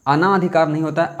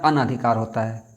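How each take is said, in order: First: "अनाधिकार" higher, with a stretched a-naa; wrong long vowel. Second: "अनधिकार" with short a-na before dhikaar; correct short vowel. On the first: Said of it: "अना नहीं होता है". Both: Shown as a demonstration.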